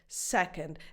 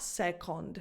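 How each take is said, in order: First: The second syllable has a weak, reduced vowel. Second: The second syllable has a full, clear O vowel. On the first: The speaker calls it right. "the other one loses its vowel definition" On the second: The speaker calls it wrong. "It's not second"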